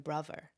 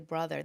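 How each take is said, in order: First: The middle consonant is a V sound. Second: The middle consonant is a TH sound. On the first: "they pronounce the T H like V" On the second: "they don't say brother"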